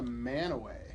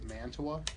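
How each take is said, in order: First: The name is said as Man-a-way. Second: The name is said as Man-tu-a. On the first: This is how the locals say it. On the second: This follows the Italian city's name.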